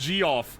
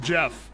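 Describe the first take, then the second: First: It is said as two syllables, G then off. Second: It is said as one syllable, Jeff. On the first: The speaker calls it wrong. "you got me with G off" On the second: The speaker calls it right. "I know it's pronounced Jeff"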